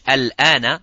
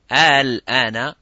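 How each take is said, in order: First: The opening vowel is short. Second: The opening vowel is drawn out long. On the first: It is a plain statement meaning now. "al-ana means now" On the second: It asks whether it is now. "means is now, is it now?"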